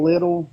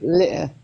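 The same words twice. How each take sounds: First: It is said in an American accent. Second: It is said in an English accent. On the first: "instead of saying little" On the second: "he'll say little"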